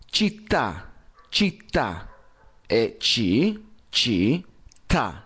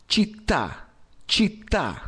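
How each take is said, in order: First: Città said with a strong double t, chit-ta; città, held tt. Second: Città said higher with a thin t, chita; learner's città; città with a short t; wrong città. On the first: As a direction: split città into ci, ta. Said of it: "Con doble T". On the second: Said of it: "città o città". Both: Shown as a demonstration.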